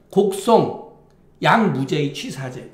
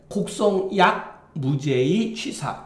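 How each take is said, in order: First: 곡송 set apart, then 양 무죄의 run together; pause before 양. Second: 곡송 약 read as one group, then a break before 무죄의; pause after 약. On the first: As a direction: break after 곡송, join 양 to 무죄의. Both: Shown as a demonstration. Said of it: "이렇게 읽어야 되는지".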